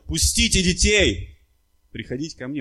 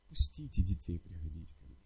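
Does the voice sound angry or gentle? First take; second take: angry; gentle. First: It is said in a harsh, angry voice. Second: It is said in a soft, velvety, gentle voice. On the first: Indignation at those keeping the children away. The speaker calls it right. "он был очень разгневан, и произносил он это" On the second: A kind, warm welcome to the children. The speaker calls it wrong. "вот так говорит ... такой вот бархатный голос"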